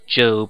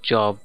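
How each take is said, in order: First: The vowel is long, rhyming with robe. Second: The vowel is short, rhyming with rob. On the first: This is how the name is actually said. "his name's Job" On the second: This is how the spelling would suggest it is said. "and not Job"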